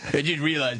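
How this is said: It is read in an imitated put-on voice.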